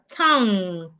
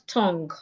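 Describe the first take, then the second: First: It ends in ng with no hard g. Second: A hard g sound is heard after the ng. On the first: The speaker calls it right. "We have the word tongue" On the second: The speaker calls it wrong. "not tongue"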